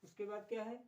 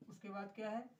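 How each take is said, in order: Both takes have the same delivery.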